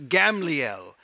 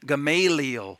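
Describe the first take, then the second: First: The name is said the Hebrew way. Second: The name is said the American English way. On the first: "in Hebrew, it's actually pronounced Gamliel" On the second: "Often he's pronounced in American English with this Gamaliel"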